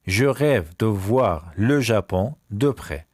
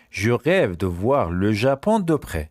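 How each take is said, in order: First: Very slow, word-by-word French; slow repeat. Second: Said in the usual way. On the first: Shown as a demonstration. Teacher repeats a sentence about Japan, very slowly. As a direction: draw out each word group.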